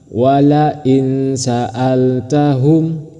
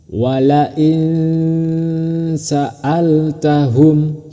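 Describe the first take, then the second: First: The n is pronounced clearly without hum. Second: The n is hidden with a nasal hum. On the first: The speaker calls it wrong. "itu salah" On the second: The speaker calls it right. "harus samar dan berdengung"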